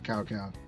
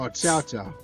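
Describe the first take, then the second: First: It starts with a plain K sound, like cow. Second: It starts with a TS sound. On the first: The speaker calls it wrong. "What do you mean cow cow?" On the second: The speaker calls it right. "C is the T S sound"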